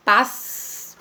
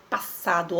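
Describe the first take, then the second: First: "pas" with a long hissed S; first syllable of "passado" stretched on the S; first S isolated. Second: Said in the usual way. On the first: Shown as a demonstration. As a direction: say "pas" alone, holding its final S. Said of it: "primeiro S". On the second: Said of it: "Se você pronunciar a palavra".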